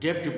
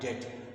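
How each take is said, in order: First: A b sound is heard before the final t. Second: No b sound is heard before the t. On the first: The speaker calls it wrong. "जैसे हम लोग डेप्ट बोले तो ये ये अच्छी बात नहीं है" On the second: The speaker calls it right. "इसका उच्चारण होता है डेट, और ब साइलेंट है"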